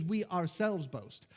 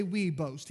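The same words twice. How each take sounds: First: "ourselves" drawn out slowly; slow the phrase to weight "ourselves"; stress on OURSELVES. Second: Said in the usual way. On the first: Shown as a demonstration. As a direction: linger on the word "ourselves" for emphasis. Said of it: "this is an, an emphasis". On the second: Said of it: "but he doesn't say".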